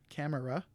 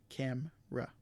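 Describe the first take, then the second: First: The middle vowel is fully pronounced. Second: The middle vowel is dropped. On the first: The speaker calls it wrong. "we don't pronounce this camera" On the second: The speaker calls it right. "We pronounce it camera"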